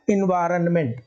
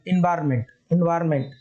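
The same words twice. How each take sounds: First: "एनवायरनमेंट" with the n sounded, in-vaa-ran-ment; correct full pronunciation. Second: "एनवायरनमेंट" said as in-vaar-ment, the middle n dropped; usual pronunciation. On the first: Teacher gives the correct form for spelling, full-n pronunciation. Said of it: "but correct क्या है". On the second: Teacher demonstrates the pronunciation that misleads spelling, n-dropping pronunciation. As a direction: say "एनवायरनमेंट" without the "ran". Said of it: "इसका pronunciation यहाँ पर है". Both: Shown as a demonstration.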